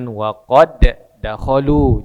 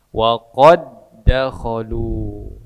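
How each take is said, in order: First: The d of qad is released with a bounce. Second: The d of qad merges into the next d. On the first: The speaker calls it wrong. "Jangan waqad dakhalu, jangan" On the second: The speaker calls it right. "tapi diidghamkan ke huruf da yang kedua"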